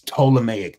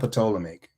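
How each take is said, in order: First: The initial P is not pronounced. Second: The initial P is pronounced aloud. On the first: The speaker calls it right. "The P is silent" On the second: The speaker calls it wrong. "it's not Ptolemaic"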